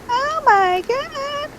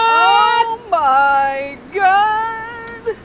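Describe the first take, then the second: First: It is said in a higher voice. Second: It is said in a lower voice.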